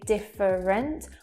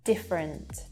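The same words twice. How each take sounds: First: The middle vowel is fully pronounced. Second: The middle vowel is dropped entirely. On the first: The speaker calls it wrong. "we don't say different" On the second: The speaker calls it right. "those two sounds disappear altogether"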